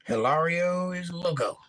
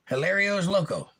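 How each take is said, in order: First: Hilario as hih-LAR-ee-o, drawn out; Spanish-style vowel. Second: Hilario as hih-LAIR-ee-o; English-style vowel. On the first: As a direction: open Hilario to an ah, slowly. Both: Shown as a demonstration. Tries the name two ways.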